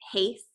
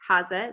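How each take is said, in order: First: The name is pronounced the usual English way. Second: The name is pronounced the German way.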